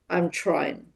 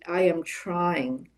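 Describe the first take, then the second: First: I and am are merged into one syllable. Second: I and am are said as separate words. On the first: "the more natural form" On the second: "the full form of the words"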